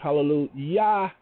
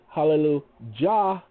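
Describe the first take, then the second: First: The last syllable starts with a y sound. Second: The last syllable starts with a j sound. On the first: This is the Hebrew pronunciation. "there is no Jah sound in Hebrew. That's why it's Hallelujah, Y-E-H" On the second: This is the English pronunciation. "And in English, it's Hallelujah, J-A-H"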